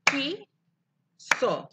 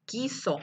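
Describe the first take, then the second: First: "Quiso" split as qui, long pause, so; rising first beat, falling second in "Quiso"; clapped syllables. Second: Said in the usual way. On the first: Shown as a demonstration. Teacher claps with pupils, "Quiso" syllable by syllable. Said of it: "Aplaudan conmigo". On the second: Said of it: "Ahora escuchen la palabra".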